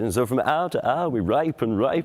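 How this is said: A modern accent makes 'hour' sound like 'our'. The rude pun is lost. The speaker calls it wrong.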